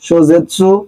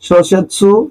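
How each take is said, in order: First: The middle consonant is a voiced 'z'. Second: The middle consonant is a voiceless 's'. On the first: The speaker calls it wrong. "সবগুলোই একই ওয়ার্ড, একটু পরিবর্তন করে দিছে" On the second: The speaker calls it right. "একটা ভালো ওয়ার্ড আছে, সেটা হচ্ছে শোসেৎসু"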